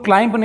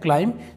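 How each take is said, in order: First: A b sound is pronounced at the end. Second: The word ends in m with no b. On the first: The speaker calls it wrong. "इसे दोस्तों क्लाइंब नहीं पढ़ेंगे" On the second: The speaker calls it right. "यह है क्लाइंब"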